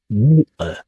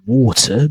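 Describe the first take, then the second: First: The T in the middle is dropped. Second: The T in the middle is clearly pronounced.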